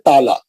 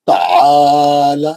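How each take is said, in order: First: The long vowel falls on the first syllable. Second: The vowel after the ain is stretched long. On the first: The speaker calls it wrong. "हम लोग क्या करते हैं ताला। ताला पढ़ते हैं खाली इसको। नहीं" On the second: The speaker calls it right. "ऐन के बाद खींचना है।"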